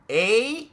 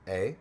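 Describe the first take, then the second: First: It is said in an exaggerated, stereotyped way. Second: It is said lightly and casually.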